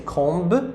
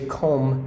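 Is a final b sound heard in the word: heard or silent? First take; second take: heard; silent. First: A b sound is heard at the end. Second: The word ends on m, with no b. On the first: The speaker calls it wrong. "We don't say comb" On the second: The speaker calls it right. "but we say comb"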